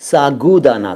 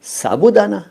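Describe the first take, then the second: First: सागुदाना with a clear g, not b; correct "sagudana". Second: साबूदाना said with b, the usual popular form; common "sabudana". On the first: Teacher giving students the correct सागुदाना. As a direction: stress the g in सागुदाना. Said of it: "सही शब्द है वो सागुदाना". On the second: Teacher voicing the common साबूदाना pronunciation. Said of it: "साबूदाना तो लोग कहने लगे हैं". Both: Shown as a demonstration.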